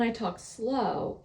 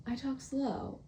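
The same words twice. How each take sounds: First: Said in the usual way. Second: "slow" drawn out, softly exaggerated; talking slow. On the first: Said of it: "when I talk slow". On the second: Shown as a demonstration. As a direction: lean into a soft, lingering "I talk slow". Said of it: "when I talk slow, it's like".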